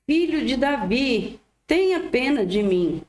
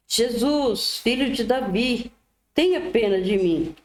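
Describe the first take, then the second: First: Higher-pitched plea at ordinary volume; more insistent narrated cry. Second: Raised-pitch plea, no real shout; mild narrated cry. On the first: Silenced blind man calls out more, higher read-aloud cry. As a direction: lift the pitch for an insistent but restrained call. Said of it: "ele gritava ainda mais". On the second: Blind beggar calls to passing Jesus, mild read-aloud cry. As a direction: read the call as a restrained cry for pity. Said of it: "o cego começou a gritar". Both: A narrator's reading.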